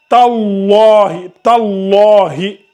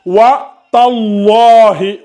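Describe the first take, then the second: First: "tallahi" very slow, doubled lam heavy; "tallahi" drawn out, emphatic lam. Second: "wa tallahi" slow, heavy full lam; "wa tallahi" recited slowly with emphatic lam. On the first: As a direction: hold the shadda on "tallahi", lam full and dark. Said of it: "la lettre emphatique plus la shadda". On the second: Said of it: "Ça doit donner wa tallahi". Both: Shown as a demonstration.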